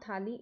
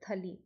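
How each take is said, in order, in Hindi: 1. पहला स्वर लंबा खींचा जाता है। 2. पहला स्वर छोटा रखा जाता है। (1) "इट इज़ नॉट थाली" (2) "इट इज़ थली"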